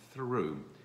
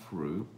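First: The word starts with a clear th sound. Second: The word starts without a clear th sound. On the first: The speaker calls it right. "is through" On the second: The speaker calls it wrong. "not threw"

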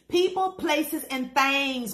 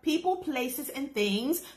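First: The words are said in a loose, casual, colloquial pronunciation. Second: The words are said in a careful, standard pronunciation. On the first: The speaker chooses her own relaxed way of saying it. "but I feel like saying it like this" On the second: The speaker shows she knows the proper way to say it. "I know proper vernacular"

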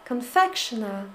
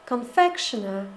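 Both takes have the same delivery.

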